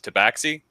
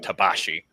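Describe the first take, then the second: First: The middle consonant sounds like 'ks'. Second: The middle consonant sounds like 'sh'. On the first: This is the officially sanctioned form. "the official uh, linguistic thing of Wizards of the Coast is Tabaxi" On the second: This fits how the word would sound in its source context. "I've been pronouncing it Tabashi um, because that's how it would be pronounced in that context"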